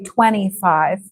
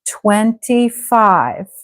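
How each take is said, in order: First: The T in the middle is reduced or dropped. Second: The T in the middle is clearly said. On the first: It is a casual way to say it at home. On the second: It is a polite, careful way to say it.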